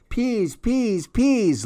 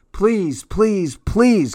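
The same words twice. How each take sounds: First: Put-on very high, soft toddler voice; baby talk. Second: Put-on high, rising child's pleading; begging child. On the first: Baby Louie copying his sister's begging, tiny high voice. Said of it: "Louie said". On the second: Cassie begging parents to go downstairs, high pleading. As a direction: beg like an eager little girl. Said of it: "Cassie said". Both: A narrator's reading.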